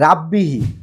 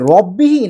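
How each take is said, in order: First: The first vowel sounds open, like 'a'. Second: The first vowel sounds rounded, like 'o'. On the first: The speaker calls it wrong. "যেটা ভুল" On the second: The speaker calls it right. "সঠিক উচ্চারণটা হচ্ছে রব্বিহি"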